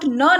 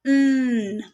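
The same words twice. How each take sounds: First: न said with a vowel after it, the wrong way; wrong n sound. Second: न as a bare humming n with no vowel; correct n sound. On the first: Teacher contrasting the wrong n sound with the right one. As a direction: say न like a full syllable. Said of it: "एन का sound न नहीं होता". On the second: Teacher showing parents the correct pure n sound. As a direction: hum just the n of न. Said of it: "it's न". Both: Shown as a demonstration.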